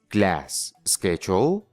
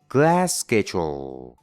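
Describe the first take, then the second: First: The words are said separately with a break. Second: The shared s sound is lengthened without a break. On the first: The speaker calls it wrong. "en vez de decir" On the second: The speaker calls it right. "no haces pausa, solo alargas el sonido"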